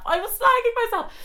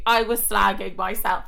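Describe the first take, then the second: First: Very high squeaky mock protest; shrieky, exaggerated protest way up high; high squeal. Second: Said in the usual way. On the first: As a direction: squeal it in comic self-defence. Repeats protest in squeaky pitch.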